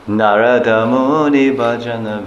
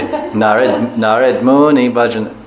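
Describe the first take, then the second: First: The first word ends with a final a vowel. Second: The first word ends on the d, without a vowel. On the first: This keeps the vowel that the meter needs. The speaker calls it right. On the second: This is the Hindi way of saying it. The speaker calls it wrong.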